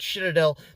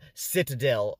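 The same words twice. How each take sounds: First: The name is said in a different, German-like way. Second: The name is said the speaker's usual way.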